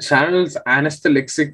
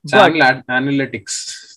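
First: The word is garbled into 'anesthelixic'. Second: The word is said clearly as 'analytics'. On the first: It imitates someone else's mistaken pronunciation. The speaker calls it wrong. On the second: It gives the intended pronunciation. The speaker calls it right.

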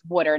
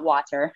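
First: The word is said in a Philadelphia accent. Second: The word is said in a standard accent. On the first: This is how locals say it. "I'm from Philly, so it's water" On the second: This is how others say it. "not water"

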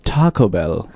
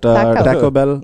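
First: It is said in an American English accent. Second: It is said in an Indian English accent. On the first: "and when you guys say it, it's like Taco Bell" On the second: "because like Indians, we say like taco"

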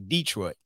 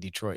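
First: It is said the way locals say it. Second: It is said in a standard, non-local way. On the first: "That's how they say it in Detroit. They say Detroit" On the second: "They don't say Detroit"

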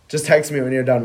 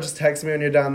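First: It is said in a grave, ominous tone. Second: It is said in a light, upbeat tone. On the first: Something bad needs to be discussed. "we need to talk" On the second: The person might just be busy. "Is it like a upbeat, like, oh my God, no"

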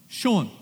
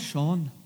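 First: The name is said in a New York accent. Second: The name is said in an Irish accent. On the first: "if you lived in New York, how would you say your name?" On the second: "And if you live in Ireland, oh"

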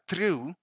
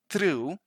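Both takes have the same delivery.

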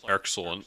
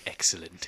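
First: It is said in a turtle-like voice. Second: It is said in a Mister Burns voice.

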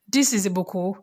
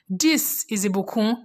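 First: It is said plainly, with little enthusiasm. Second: It is said with more energy and enthusiasm.

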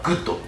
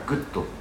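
First: The word is said forcefully, with strong emphasis. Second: The word is said calmly, without strong emphasis. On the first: The speaker is eager and excited to accept. "少しびっくりマークがつく強いトーンでグッドと答えている" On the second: The speaker accepts coolly and composedly. "びっくりマークをつけないグッドで答えてます"

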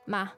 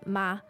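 First: The particle is said on a slightly falling pitch. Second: The particle is said on a slightly higher pitch. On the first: It softens the sentence and gently persuades. "A slightly falling tone" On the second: It makes the sentence a question. "a slightly higher tone, a pitch for the question"

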